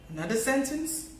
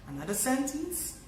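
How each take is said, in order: The two takes are said the same way.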